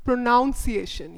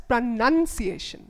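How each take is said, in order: First: "pronunciation" with second syllable like "noun". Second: "pronunciation" with second syllable like "nun". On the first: Teacher showing learners a word, "pronunciation" said with a "noun" sound. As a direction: say "pronunciation" as pro-NOUN-see-ay-shun. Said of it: "say this word". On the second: Teacher telling learners how to say it, "pronunciation" with a "nun" sound. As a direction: say "pronunciation" slowly as pruh-nun-see-ay-shun. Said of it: "You are going to say it as". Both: Shown as a demonstration.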